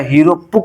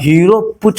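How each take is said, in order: First: The last word ends with a 'k' sound. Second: The last word ends with a 'ch' sound. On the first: The speaker calls it right. "Hero पुक होता है" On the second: The speaker calls it wrong. "Hero पुच नहीं होता"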